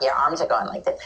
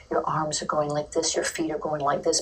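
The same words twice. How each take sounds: First: The wrong way. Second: From the heart. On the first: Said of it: "It's not". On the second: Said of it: "from your heart". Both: Shown as a demonstration.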